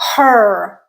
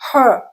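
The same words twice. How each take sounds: First: The vowel ends with a clear r coloring. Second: The vowel is said with no r coloring. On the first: "it's used a lot in um, American English" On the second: "the her without that R coloring on it"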